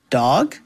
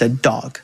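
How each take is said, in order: First: It is said hesitantly, with little confidence. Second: It is said confidently.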